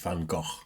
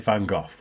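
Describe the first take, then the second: First: The name has a Dutch-style pronunciation. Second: The name has an anglicized English pronunciation. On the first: The speaker calls it right. "It's Van Gogh" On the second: The speaker calls it wrong. "I say Van Gogh, which I know is wrong"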